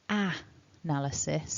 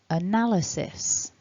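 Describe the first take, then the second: First: The first vowel is a full open 'ah'. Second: The first vowel is a weak 'uh'. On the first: The speaker calls it wrong. "we don't say ah analysis" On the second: The speaker calls it right. "That first sound is a weak vowel"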